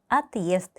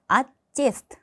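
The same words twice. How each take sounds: First: Отъезд with a clear break before the ending; correct pronunciation. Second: Отъезд blurred to aest, no break before the ending; wrong pronunciation. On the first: Teacher gives learners the correct form. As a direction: say отъезд with the hard sign kept. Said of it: "트위어드 znak을 붙여서". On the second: Teacher demos the mistake to learners. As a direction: say отъезд as a rising slur. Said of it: "이게 없었다면". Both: Shown as a demonstration.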